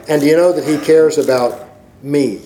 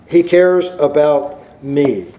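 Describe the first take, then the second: First: Said in the usual way. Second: Each word laid down slowly, "He cares about me"; slow it right down on "He cares about me"; slow emphatic. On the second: Shown as a demonstration.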